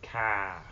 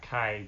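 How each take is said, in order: First: "Ka" with one open Appalachian vowel; Appalachian accent. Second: "Kai" with a gliding eye vowel; diphthong pronunciation. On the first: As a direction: flatten it to "Ka", East Tennessee style. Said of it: "If you ever heard that accent". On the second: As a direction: say "Kai" to rhyme with guy. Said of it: "but Ka". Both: Shown as a demonstration.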